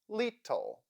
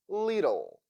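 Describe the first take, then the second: First: The middle consonant is a clear t. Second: The middle consonant is a d-like flap. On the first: "read these words with the sound T" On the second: "Now let's read it with flap T"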